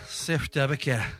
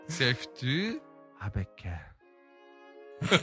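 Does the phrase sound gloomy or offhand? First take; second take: offhand; gloomy. First: The phrase is said in a careless, offhand tone. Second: The phrase is said in a dark, gloomy tone. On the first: "投げやりで言ってみてください" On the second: "暗くなっちゃいましたね"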